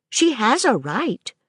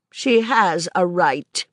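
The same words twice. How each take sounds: First: Put-on higher, light child's voice rising at the end; a child's hopeful rising tone; childlike Maisie. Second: Said in the usual way. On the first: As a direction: voice the little girl pleading her case. Child Maisie echoes governess.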